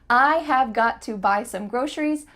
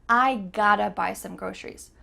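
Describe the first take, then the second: First: Every word is said fully and clearly. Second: 'Have' is dropped and 'got to' becomes 'gotta'.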